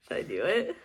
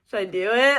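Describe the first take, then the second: First: Soft, low, sneaky asking; quiet tempted question. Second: Louder, brighter teasing ask; eager question. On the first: Tempted to read the last sentence, asking herself softly. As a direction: whisper the temptation to yourself. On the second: About to peek at the ending, asking viewers eagerly. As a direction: ask the viewers, egging yourself on. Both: Real, not acted. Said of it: "I really wanna go and read this last one".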